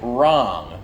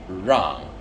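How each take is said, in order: First: The first sound is a plain English r. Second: The first sound is a buzzy r-zh blend. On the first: The speaker calls it wrong. "you don't say wrong" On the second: The speaker calls it right. "the mix of an R and the second G sound in garage"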